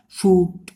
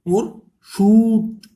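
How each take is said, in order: First: Said in the usual way. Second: शूट stretched very slowly and loud on the long oo; drawn-out demo. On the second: Shown as a demonstration. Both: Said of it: "कू की आवाज रहे ना".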